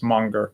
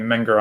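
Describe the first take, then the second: First: The first vowel sounds like the u in 'mun'. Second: The first vowel sounds like the e in 'men'. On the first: The speaker calls it right. "a better pronunciation of the Austrian name is Munger" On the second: The speaker calls it wrong. "some people pronounce his name Menger"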